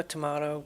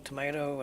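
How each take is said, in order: First: "tomato" as tuh-MAH-to; ah variant. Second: "tomato" as tuh-MAY-to; long ay in the middle of "tomato"; ay variant. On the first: Host listing variants, "tomato" as tuh-MAH-to. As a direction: open ah in the middle of "tomato". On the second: Host listing variants, "tomato" as tuh-MAY-to. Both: Shown as a demonstration.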